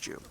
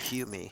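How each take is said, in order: First: The name begins with a J sound. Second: The name begins with an H sound. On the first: "I think it's Joom" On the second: "I heard you say like Hume"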